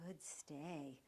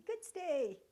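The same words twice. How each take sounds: First: Low, soft praise; soft, even praise; calm praise. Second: High, loud gushing praise; the wrong way, too excited; loud, too-excited praise that gets the dog up. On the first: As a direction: praise him gently to keep him in place. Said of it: "keep your voice nice and calm". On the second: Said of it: "If you say ... you might get the dog up". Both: Shown as a demonstration.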